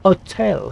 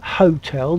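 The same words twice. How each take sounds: First: The word starts without any H sound. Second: The word starts with a clear H sound. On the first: "They say hotel" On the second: "the French don't say hotel"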